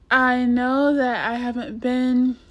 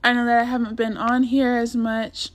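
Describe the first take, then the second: First: Hoarse, scratchy raspy voice; rough raspy throat. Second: Raspy, hoarse and scratchy. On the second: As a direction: talk through a rough throat. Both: Real, not acted. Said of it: "excuse my voice".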